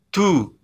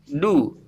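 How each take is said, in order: First: The d is released with a puff of air. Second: The d is released without a puff of air. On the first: The speaker calls it wrong. "bukan du" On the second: The speaker calls it right. "Ini yang benar membacanya du"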